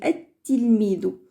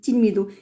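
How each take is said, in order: First: The word starts with an initial 'a' vowel. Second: The word starts directly without an initial vowel. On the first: The word begins the sentence. "alors on le prononce, on dit at-tilmido" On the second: The word is inside the sentence. "là on passe directement on dit tilmido"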